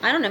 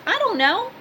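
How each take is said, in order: First: Said in the usual way. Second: "I don't know" jumps high and rises at the end; high rising shrug. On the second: Shown as a demonstration. Shrugging off gossip about Bob, high and rising. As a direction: toss it off in a high, questioning lilt.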